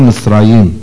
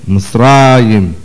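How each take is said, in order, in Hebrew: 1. הטעם על ההברה האחרונה. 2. הטעם על ההברה שלפני האחרונה. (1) "ולא מצרים" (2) "שכן המילה מצרים מלעיל"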